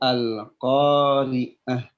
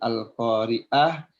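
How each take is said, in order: First: The middle consonant is a tight throaty ain. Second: The middle consonant is a plain glottal stop. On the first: The speaker calls it right. "tapi al-qari'ah. Pakai ain" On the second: The speaker calls it wrong. "bukan al-qari'ah"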